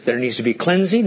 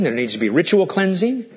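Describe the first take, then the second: First: Said in the usual way. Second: Ritual lifted with a rising tune; stress on ritual. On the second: Shown as a demonstration. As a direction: lean on the word ritual and rise on it.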